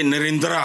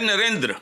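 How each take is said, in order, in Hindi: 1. आखिरी स्वर लंबा है और पूरा बोला जाता है। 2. आखिरी स्वर बहुत हल्का है, मुश्किल से सुनाई देता है। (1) "ना ये नरेंद्रा है" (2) "जो ए है या अलिफ है उसको आपने हल्का सा बस देख के गुजर जाना"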